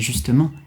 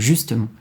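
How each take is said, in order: First: The stress is on the last syllable. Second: The stress is on the first syllable. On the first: "en français, on a en général l'accent sur la finale" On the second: "plutôt que"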